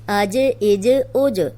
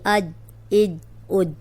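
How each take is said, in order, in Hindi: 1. अंतिम j उछलती हुई गूंज के साथ छोड़ी जाती है। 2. अंतिम j अचानक रुक जाती है, कोई उछाल नहीं होती। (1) "इसको हिला के पढ़ना है। ये बाउंस होती है आवाज इसकी" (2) "हम ऐसे नहीं पढ़ेंगे आज इज ओज, ऐसे नहीं, रोकना नहीं है"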